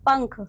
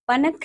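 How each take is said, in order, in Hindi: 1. 'n' का उच्चारण अनुनासिक ध्वनि की तरह घुल जाता है। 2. 'n' का उच्चारण पूर्ण अक्षर के रूप में होता है। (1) "नहीं बच्चों" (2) "नहीं"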